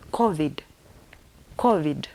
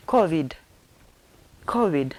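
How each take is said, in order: Both takes have the same delivery.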